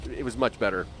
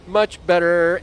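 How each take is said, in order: First: Said in the usual way. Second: "Much better" louder and higher, punching much; emphatic repeat. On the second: Shown as a demonstration. Gamer insisting the wire was better, "Much better" punched louder. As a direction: lean hard on "Much better".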